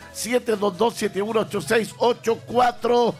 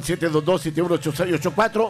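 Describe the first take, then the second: First: The number is read slowly. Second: The number is read at normal speed.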